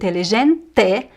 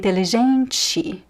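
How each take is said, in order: First: The final vowel is said as a full vowel. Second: The final vowel is reduced to a short ee sound. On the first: "instead of saying" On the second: "I would say"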